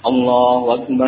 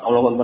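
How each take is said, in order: First: It is said slowly and clearly. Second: It is said quickly and hurriedly. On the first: The speaker calls it right. "diucapkan dengan pelan, jelas, dengan panjang pendek yang tepat ... seperti itu" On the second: The speaker calls it wrong. "Bukan cepat"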